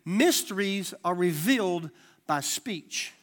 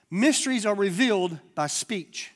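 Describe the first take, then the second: First: Slower still. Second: Slow emphasis. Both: Shown as a demonstration. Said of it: "Let me say it again".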